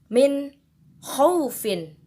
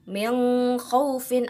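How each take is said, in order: First: The n sound is pronounced clearly. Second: The n sound is blurred, not clearly pronounced. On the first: The speaker calls it right. "maka cara bacanya pun harus dijelaskan" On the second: The speaker calls it wrong.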